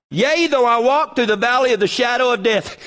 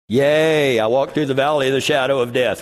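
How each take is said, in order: First: Said in the usual way. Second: "Yea" said like casual "yeah", lower and quicker. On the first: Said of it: "I cannot read that verse without going". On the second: Shown as a demonstration. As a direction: read "Yea" as an offhand yeah, rushed. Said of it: "that's not the right yea".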